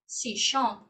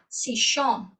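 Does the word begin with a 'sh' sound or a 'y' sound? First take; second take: sh; sh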